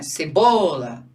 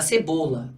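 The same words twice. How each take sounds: First: "Cebola" drawn out slowly and louder; slow model word. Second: Said in the usual way. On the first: Shown as a demonstration. Teacher showing the class the example word slowly. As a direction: lay out "Cebola" syllable by syllable. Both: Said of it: "olha lá".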